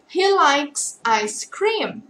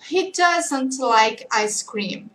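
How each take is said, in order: First: "he likes ice cream" drawn out word by word; very slow model answer. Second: "he doesn't like ice cream" drawn out word by word; very slow negative answer. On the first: Teacher modelling the positive answer very slowly. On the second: Teacher modelling the negative answer very slowly. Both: Shown as a demonstration.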